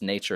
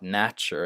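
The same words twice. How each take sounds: First: The first vowel is the vowel of 'nation'. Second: The first vowel is the vowel of 'national'. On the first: The speaker calls it right. "it's nature" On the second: The speaker calls it wrong. "not nature"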